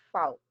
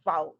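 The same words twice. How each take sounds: First: "fault" on a breathy F; voiceless F in fault. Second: "Vault" said loud with a buzzing V; voiced V in vault. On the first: Teacher contrasting voiceless F for the class. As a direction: start "fault" with an unvoiced F. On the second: Teacher modelling voiced V for the class. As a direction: buzz into "Vault". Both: Shown as a demonstration. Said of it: "say the pair of words with me".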